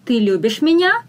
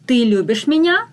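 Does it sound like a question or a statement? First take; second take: question; question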